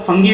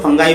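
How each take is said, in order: First: फंगी ending in an "ee" sound; alternative pronunciation. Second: फंगाई ending in an "eye" sound; alternative pronunciation. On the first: Teacher showing students how many people say it, फंगी ending in "ee". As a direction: say फंगी with final "gee". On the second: Teacher giving the other common pronunciation, फंगाई ending in "eye". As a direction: say फंगाई with final "guy". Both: Shown as a demonstration. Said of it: "pronunciation के अंदर फर्क है".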